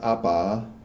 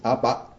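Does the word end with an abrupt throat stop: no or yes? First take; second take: no; yes. First: The word ends openly without a throat stop. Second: The word ends abruptly with a throat stop. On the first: The speaker calls it wrong. "it's not apa" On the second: The speaker calls it right. "You hear how I'm stopping it there?"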